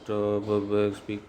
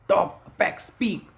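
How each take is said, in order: First: The words are said in a plain, flat way. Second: The words are said with dramatic, lively flair. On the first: The words will not stick in memory. The speaker calls it wrong. "ऐसे नहीं रहेगा" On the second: The words will stick in memory. The speaker calls it right. "कुछ अलग से मतलब हवाबाजी से मैं बोलता हूँ"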